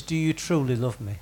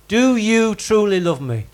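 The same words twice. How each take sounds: First: Said in the usual way. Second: Measured, deliberate question leaning on "truly"; emphatic repeat. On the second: Shown as a demonstration. Preacher repeats the missing word for the congregation, emphatic on "truly".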